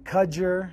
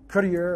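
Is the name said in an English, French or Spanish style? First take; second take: English; Spanish. First: The name is said with plain English sounds. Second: The name is said with Spanish-style sounds. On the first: "I've been I've been" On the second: "Spanish with uh"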